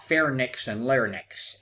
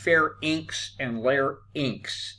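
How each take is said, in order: First: The endings are pronounced not rhyming with lynx. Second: The endings are pronounced to rhyme with lynx. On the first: The speaker calls it wrong. "not pharynx and larynx, as some people would like to say" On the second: The speaker calls it right. "It rhymes with lynx"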